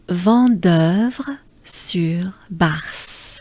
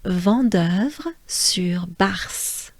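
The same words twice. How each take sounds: First: The name is said a little more slowly. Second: The name is said at a normal speed. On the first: "let's do it together a little slower" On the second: "I'll just pronounce it once"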